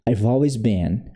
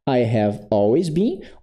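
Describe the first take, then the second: First: The words I have are contracted to I've. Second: The words I have are said in full. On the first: "você pode dar uma contraidinha aqui" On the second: "eu posso falar I have always been"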